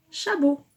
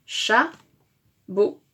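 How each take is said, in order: First: Said in the usual way. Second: "chabot" in two halves, "cha", pause, "bot"; split into syllables. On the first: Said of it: "Donc nous avons le". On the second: Shown as a demonstration. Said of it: "Première syllabe de chameau".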